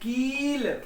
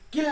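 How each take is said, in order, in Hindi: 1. स्वर लंबा और खिंचा हुआ है। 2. स्वर छोटा और झटके वाला है। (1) "जरा साउंड बढ़ा के बोलना" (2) "किल नहीं"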